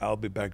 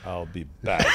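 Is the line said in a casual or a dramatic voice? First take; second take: casual; dramatic. First: The line is said in a plain, casual voice. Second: The line is said in a heavy, dramatic voice. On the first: The speaker calls it wrong. "and I would say" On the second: The speaker calls it right. "the way you say it in the movies"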